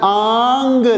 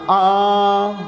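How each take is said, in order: First: It ends with a clearly pronounced hard g. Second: It ends in a nasal sound without g. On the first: The speaker calls it wrong. "इसको मैं आंग नहीं कहूंगा, गाफ के ऊपर मैं जोर नहीं दूंगा" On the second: The speaker calls it right. "आंग नहीं है तो क्या हो जाएगा"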